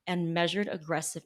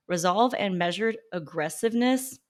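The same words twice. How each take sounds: First: Said in the usual way. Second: "measured aggressiveness" stretched out and weighted with mock gravity; mocking emphasis. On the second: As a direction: savour "aggressiveness" sarcastically. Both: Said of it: "who talks like this?".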